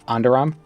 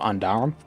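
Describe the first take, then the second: First: The stress is on a later syllable. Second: The stress is on the first syllable.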